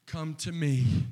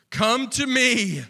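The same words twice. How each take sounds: First: Said in the usual way. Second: Swelling call. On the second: Shown as a demonstration. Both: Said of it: "repeated line, second louder".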